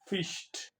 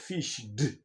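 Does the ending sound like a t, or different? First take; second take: t; different. First: The ending is a t sound. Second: The ending is not a t sound. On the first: The speaker calls it right. "you give it a t" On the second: The speaker calls it wrong. "not fished"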